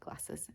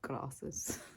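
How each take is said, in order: First: It is said in her own plain accent. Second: It is said in a posh accent.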